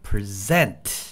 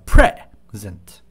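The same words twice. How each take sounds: First: The stress is on the second syllable. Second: The stress is on the first syllable. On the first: It means to present something. "present 뒤쪽에 강조를 합니다" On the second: It means a gift. "present 할 때는 앞쪽이 강조를 앞쪽이 강조를 합니다"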